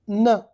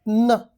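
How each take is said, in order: The two takes are said the same way.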